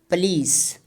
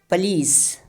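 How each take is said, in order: No difference in how they are said.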